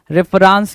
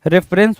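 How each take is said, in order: First: रेफरेंस with long "raans" ending; misspelling read out. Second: रेफरेंस with short "rens" ending; correct pronunciation. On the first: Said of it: "रेफरेंस तो कुछ नहीं होना चाहिए". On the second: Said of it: "रेफरेंस होता है". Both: Shown as a demonstration.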